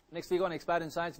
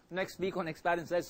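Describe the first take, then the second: First: Said in the usual way. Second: Talking through a mouthful; words round a bite of food; mouth full. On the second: Real, not acted. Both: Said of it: "sorry, I'm talking with my mouth full".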